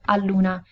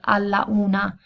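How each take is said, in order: First: The final vowel drops, linking into 'una'. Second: Both vowels are said, 'alla' then 'una'. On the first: The speaker calls it right. "all'una is much easier to pronounce" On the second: The speaker calls it wrong. "alla una is more difficult to say"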